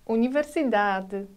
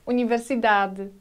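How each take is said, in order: First: The final syllable is soft and barely voiced. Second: The final syllable is soft and barely voiced.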